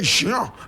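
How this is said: The name is pronounced the French way. "In French we say Jean"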